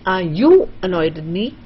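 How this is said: The stress falls on the word you. "you want to stress on you"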